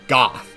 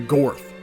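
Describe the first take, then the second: First: The name is said without an r sound. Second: The name is said with an r sound. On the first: The speaker calls it wrong. "I actually mispronounced his name and called him Goth" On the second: The speaker calls it right. "now I'll say his name correctly"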